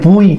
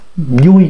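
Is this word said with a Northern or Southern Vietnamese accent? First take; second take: Northern; Southern. First: The initial v is a clear buzzing v. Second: The initial v sounds like a lip-rounded y. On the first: The speaker calls it wrong. "vui là Bắc Kỳ" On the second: The speaker calls it right. "mím môi lại mới nói thế"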